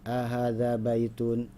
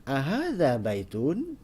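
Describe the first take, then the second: First: "Ahadza baitun?" read flat with no rise or fall, slow; flat question. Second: "Ahadza baitun?" with a clear rising question tune, slow; question intonation. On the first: Teacher showing the wrong way, flat and slow. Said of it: "kita tidak bisa datar". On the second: Teacher showing students the right question tune. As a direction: ask "Ahadza baitun?" with the pitch moving, slowly. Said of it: "Jadi harus ada menurunnya". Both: Shown as a demonstration.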